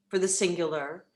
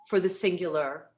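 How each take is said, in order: No difference in how they are said.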